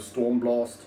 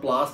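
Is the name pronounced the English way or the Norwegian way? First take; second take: Norwegian; English. First: The name is pronounced with Norwegian vowels. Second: The name is pronounced with English vowels. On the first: The speaker calls it right. "because I'm trying to do the Norwegian pronunciation" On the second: The speaker calls it wrong.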